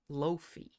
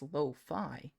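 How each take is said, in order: First: The word ends with a 'fee' sound. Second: The word ends with a 'fie' sound. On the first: The speaker calls it wrong. "you pronounce it loaf, loafy? Which I swear that's not how you pronounce it" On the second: The speaker calls it right. "I swear it's lo-fi"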